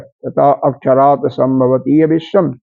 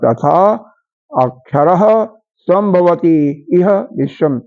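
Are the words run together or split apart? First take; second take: together; split. First: The words are run together without a break. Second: The words are split apart with separate words.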